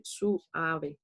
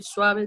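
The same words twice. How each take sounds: First: "suave" slowly split as su-a-ve; diphthong separated. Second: Said in the usual way. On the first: Shown as a demonstration. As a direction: break "suave" into three syllables, su, a, ve. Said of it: "yo debo separar suave". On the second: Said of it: "En vez de decir suave".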